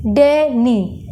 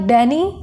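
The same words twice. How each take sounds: First: Danny slowly, a clear break after the first syllable; split into syllables. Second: Said in the usual way. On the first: Shown as a demonstration. Teacher showing where the word breaks, Danny split in two. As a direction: say Danny in two separate beats. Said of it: "बीच में हम एक बार break ले रहे हैं". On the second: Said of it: "Danny हम एक बार में नहीं बोलते".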